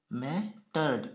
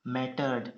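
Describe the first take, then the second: First: mattered in two parts, मै, pause, टर्ड; split into syllables. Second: Said in the usual way. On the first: Shown as a demonstration. Teacher dictating to shorthand students, mattered split in two. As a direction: break mattered after मै.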